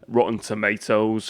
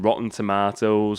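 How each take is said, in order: First: It is said in an American accent. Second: It is said in a British accent.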